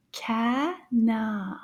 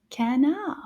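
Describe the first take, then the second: First: CANARD slowly split, with a gap between syllables. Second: Said in the usual way. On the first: Shown as a demonstration. Teacher repeating "canard" for children, split by syllable. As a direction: say "canard" as two separate syllables. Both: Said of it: "let's repeat that one more time".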